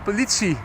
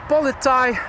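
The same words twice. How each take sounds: First: The last syllable starts with a ts sound. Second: The last syllable starts with a plain t sound. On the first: The speaker calls it right. "you say politie. T S" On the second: The speaker calls it wrong. "instead of saying politie"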